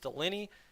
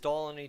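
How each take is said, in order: First: The name is said the standard way. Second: The name is said the family's own way. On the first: The speaker calls it right. "The correct pronunciation is Delaney" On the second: The speaker calls it wrong. "I say that wrong"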